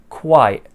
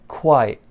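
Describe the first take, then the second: The two takes are said the same way.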